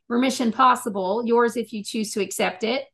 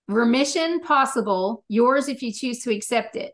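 First: The title is said at normal speed. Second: The title is said more slowly.

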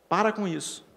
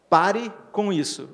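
First: It is said the São Paulo way, 'para'. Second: It is said the Paraná way, 'pare'.

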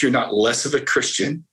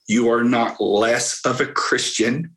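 First: It is said at normal speed. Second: It is said slowly.

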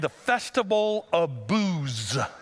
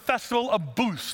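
First: The last word ends with a buzzing z sound. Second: The last word ends with a th sound. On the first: It sounds like a party with alcohol. The speaker calls it wrong. "We thought you were saying the Festival of Booths" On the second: It refers to a festival of huts. The speaker calls it right. "No, it's the Festival of Booths, like huts"

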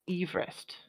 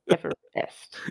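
First: It is said like the original surname. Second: It is said the usual everyday way. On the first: The speaker calls it right. "someone whose surname is pronounced Everest" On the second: The speaker calls it wrong. "we pronounce Everest incorrectly"

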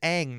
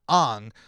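First: The vowel sounds like the one in 'cat'. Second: The vowel sounds like the one in 'cot'. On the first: The speaker calls it right. "is going to be pronounced as Aang" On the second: The speaker calls it wrong. "not Ong"

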